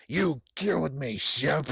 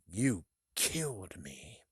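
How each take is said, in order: First: Raised, rasping ghost voice; forceful haunting whisper-cry; ghostly accusation. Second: Slow, breathy ghost whisper; hushed, stretched haunting voice; ghostly accusation. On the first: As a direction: accuse him like a vengeful spirit, louder. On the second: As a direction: draw it out like a floating spirit. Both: Acted. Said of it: "but he is floating".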